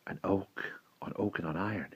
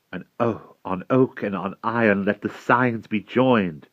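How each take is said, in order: First: Very soft, hushed repetition; whispered. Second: Slightly raised, higher character voice; lady's proclamation. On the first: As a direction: whisper it, far below speaking level. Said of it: "he whispered". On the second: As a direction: proclaim it as the lady to those gathered. Lady proclaims the joining of signs. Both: A narrator's reading.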